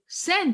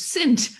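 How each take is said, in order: First: The vowel is an open 'eh' sound. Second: The vowel is a raised 'ih' sound. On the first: "and I go" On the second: "but it's it was accent"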